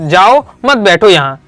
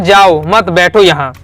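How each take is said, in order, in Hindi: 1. विराम 'jao' के बाद, 'mat' से पहले आता है। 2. विराम 'mat' के बाद, 'baitho' से पहले आता है। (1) "मैंने क्या सुन लिया, जाओ यहाँ से, बैठा नहीं है" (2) "उसने कहा जाओ मत, मतलब जाना नहीं है, यहीं बैठो"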